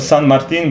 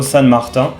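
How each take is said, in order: First: The name is pronounced with Spanish sounds. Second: The name is pronounced with French sounds. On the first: The speaker calls it right. "would be the right pronunciation" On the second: The speaker calls it wrong. "in French, that's how you pronounce it"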